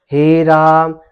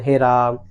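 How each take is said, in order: First: Loud, slow हे राम with long हे and रा; prolonged vowels. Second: हे राम said briefly, vowels not held; short, unprolonged. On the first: Teacher shows class the proper way, हे राम loud and prolonged. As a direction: stretch both words of हे राम loudly. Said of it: "बोलेंगे". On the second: Teacher shows class the wrong way, हे राम short. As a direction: say हे राम short, without stretching or force. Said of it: "ऐसे नहीं बोलेंगे". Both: Shown as a demonstration.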